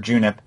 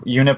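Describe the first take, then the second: First: The name begins with a J sound. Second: The name begins with a Y sound.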